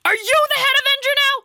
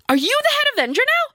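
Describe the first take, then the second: First: It sounds angry. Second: It sounds hopeful.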